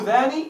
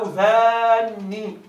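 First: Said in the usual way. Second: ذان with the nun held long and doubled, slowly. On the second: Shown as a demonstration. Teacher showing students the doubled-nun form, slow and emphatic. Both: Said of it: "بتشديد النون".

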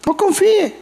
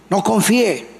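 First: "no confíe" thrown up much higher; emphatic warning. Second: Said in the usual way. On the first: Shown as a demonstration. Preacher warning the congregation not to trust, emphatically. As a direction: hit "no confíe" hard and high.

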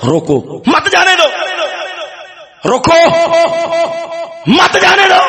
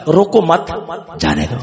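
First: "روکو" alone, then "مت جانے دو" high and urgent; urgent order, مت joined to جانے دو; pause after روکو. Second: Group روکو with مت, break, drop جانے دو; pause after مت. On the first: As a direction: break after روکو, then cry مت جانے دو as one command. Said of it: "انہیں پڑھیا". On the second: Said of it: "دوسرا آیا". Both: Shown as a demonstration.

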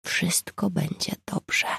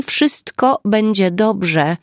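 First: Slow, soft whisper, much softer; soft reassuring whisper over the ambulance wait; quiet whisper. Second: Louder and slow, every word distinct; slow, loud, clear reassurance. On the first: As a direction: whisper it slowly to comfort both women. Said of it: "powiedziała cicho". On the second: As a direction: reassure her loudly, spelling it out slowly. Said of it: "powiedziała głośno i wyraźnie". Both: A narrator's reading.

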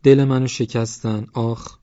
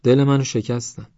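First: Slow, high, drawn-out mimicry; mock wounded lament with an "ah"; mocking imitation. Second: Higher, louder wounded protest; hurt complaint. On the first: A narrator's reading. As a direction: mimic her complaint mockingly, stretching it out. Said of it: "ادای او را درآورد". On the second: Acted. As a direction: complain that they hurt you. Original complaint, later mimicked.

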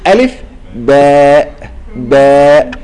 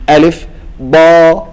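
First: ألف، باء، باء said slowly with a full باء; باء with its full name ending; correct spelling-out. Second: ألف، با said slowly with a short thin با; ألف، با with the baa cut short; wrong spelling-out. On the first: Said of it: "تقول". (نطق صحيح لحرف باء كاملا) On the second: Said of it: "تقول لي". (نطق خاطئ لحرف با مقصورا) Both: Shown as a demonstration.

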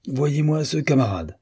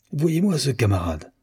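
First: Higher exasperated outburst to the dog; fuming old admiral, pitched up; the admiral appealing to his dog, mildly angry; red-hot anger. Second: Higher-pitched exasperated outburst, moderate; an old admiral fuming at his nephew, pitched up; red-hot anger. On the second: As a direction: uncle venting at the dog about his nephew, a hint of anger. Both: A narrator's reading. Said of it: "dans une colère poussée au rouge".

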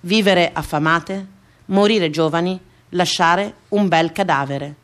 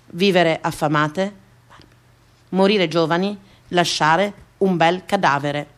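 No difference in how they are said.

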